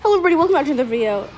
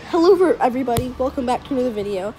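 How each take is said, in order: First: It is said very fast. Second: It is said more slowly.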